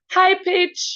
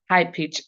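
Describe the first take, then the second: First: HIGH PITCH raised high and louder. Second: Said in the usual way. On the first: Retold or imitated. Evaluator echoing a speaker's demonstration, high-pitched. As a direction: lift the words high pitch sharply up in pitch. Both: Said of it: "demonstrated it in how you said".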